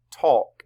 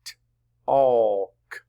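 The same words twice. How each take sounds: First: Said in the usual way. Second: T-alk split into t, aww, k; sounded out. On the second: Shown as a demonstration. Teacher sounds it out for class, T-alk segmented. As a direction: loudly stretch the vowel of T-alk between separate consonants. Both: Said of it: "Sound it out".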